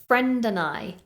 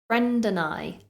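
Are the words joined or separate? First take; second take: joined; joined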